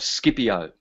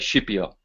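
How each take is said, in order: First: The name is said with an English pronunciation. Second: The name is said with an Italian pronunciation.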